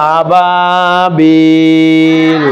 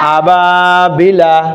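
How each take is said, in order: First: The word ends on a consonant sound. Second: The word ends with a short vowel sound. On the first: The reader stops at this word. "কিন্তু থামলে হবে আবাবিল" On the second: The reading continues without stopping. "মধ্যে তবেই হয়"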